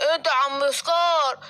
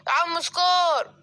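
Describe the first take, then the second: First: Said in the usual way. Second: Slow, drawn-out shout of سكار; calling out. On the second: Acted. The elephant calls out to Scar outside the house, slow drawn-out shout. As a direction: call out to Scar from across the way.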